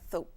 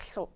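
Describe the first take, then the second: First: The s sound is replaced by a th. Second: The s sound has air escaping sideways. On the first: "the S, you know, might sound more like a T H" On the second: "the air might come out the sides"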